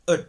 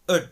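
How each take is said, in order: First: It has a short uh vowel and soft D. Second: The same.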